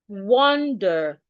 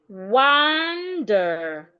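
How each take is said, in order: First: The first vowel is a rounded 'o' sound. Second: The first vowel is an open 'ah' sound. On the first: "the letter A makes the O sound. O, that is in British English" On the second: "if Americans want to pronounce this word, the letter A will be articulated as ah"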